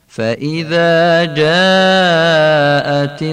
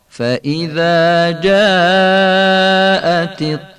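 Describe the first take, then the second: The two takes are said the same way.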